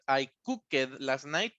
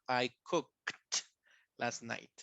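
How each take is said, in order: First: The ending of cooked sounds like 'id'. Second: The ending of cooked sounds like 't'. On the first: The speaker calls it wrong. "No digan cooked" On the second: The speaker calls it right.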